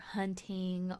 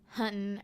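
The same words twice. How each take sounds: First: The ending is said fully with a g sound. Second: The ending is said without the g sound. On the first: This is the careful way of speaking. "I don't, for one thing, ever like pronounce my" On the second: This is the everyday way of speaking. "it would be more like"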